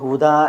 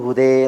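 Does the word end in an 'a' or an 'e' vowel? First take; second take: a; e. First: The word ends in an open 'a' vowel. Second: The word ends in a fronted 'e' vowel. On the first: This is the common pronunciation. "ഹുദ എന്ന് നമ്മൾ പറയുകയാണെങ്കിൽ" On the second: This is the tribe's dialect pronunciation. "അവർ ഹുദേ എന്നാണ് പറയുക"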